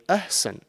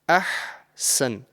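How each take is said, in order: First: The h is light and breathy, barely voiced. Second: The h is strong, from deep in the throat. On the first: The speaker calls it wrong. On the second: The speaker calls it right.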